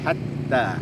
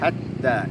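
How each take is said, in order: First: The a vowel is light and thin. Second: The same.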